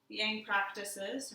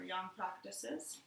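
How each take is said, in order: First: "Yang" drawn out slowly, starting like "eng"; first try at Yang. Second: Put-on "Yang" said like "young", softer; corrected Yang. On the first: Teacher naming the practice tries "Yang" slowly. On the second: Teacher correcting herself says "Yang" like "young". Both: Shown as a demonstration. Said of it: "or Yang practices".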